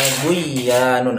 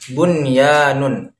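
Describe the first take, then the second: First: The n sound is dropped into the y. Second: The n sound is clearly pronounced before y. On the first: The speaker calls it wrong. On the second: The speaker calls it right.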